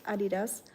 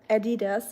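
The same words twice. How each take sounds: First: Adidas said as AH-dee-das; German pronunciation. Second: Adidas with a flat "a", as in "add"; American-style Adidas, starting with "add"; American pronunciation. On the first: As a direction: open "ah" at the start of Adidas. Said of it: "it's Adidas". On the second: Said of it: "It's not Adidas". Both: Shown as a demonstration.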